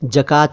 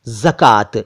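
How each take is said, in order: First: The word begins with a j sound. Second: The word begins with a z sound. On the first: The speaker calls it wrong. "जकात नहीं" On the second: The speaker calls it right. "ज के नीचे नुक्ता"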